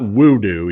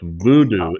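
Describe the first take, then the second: First: The word begins with a W sound. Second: The word begins with a V sound. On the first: The speaker calls it wrong. "it's not voodoo, even though it's spelled that way" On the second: The speaker calls it right. "the W is pronounced like a V. So it's Voodoo"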